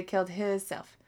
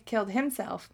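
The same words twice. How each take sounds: First: Himself said as two words "his self". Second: Said in the usual way. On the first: Shown as a demonstration. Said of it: "I say". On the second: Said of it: "But I don't say".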